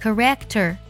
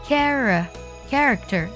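First: The stress is on the second syllable. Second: The stress is on the first syllable. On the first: The speaker calls it wrong. "这样读是错的" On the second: The speaker calls it right. "它的重音呢在第一个音节"

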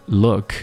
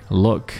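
Both takes have the same delivery.

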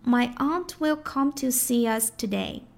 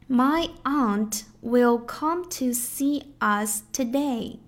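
First: A light y sound links see and us. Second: The words see and us are said separately.

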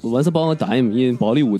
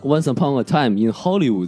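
First: It is said in an Indian accent. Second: It is said in a plain accent.

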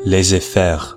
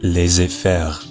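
Both takes have the same delivery.

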